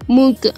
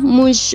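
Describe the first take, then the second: First: The final consonant is a hard g sound. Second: The final consonant is a zh sound. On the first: This is the central provinces' pronunciation. "در ولایت های مرکزی گ تلفظ میشه" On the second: This is the Kandahar pronunciation. "در ولایت های قندهار ژ تلفظ میشه"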